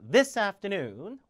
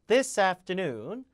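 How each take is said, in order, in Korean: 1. 강세는 afternoon이 아니라 this에 있어요. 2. 강세는 this가 아니라 afternoon에 있어요. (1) "지시대명상 강세 줍니다" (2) "this afternoon이 아니라"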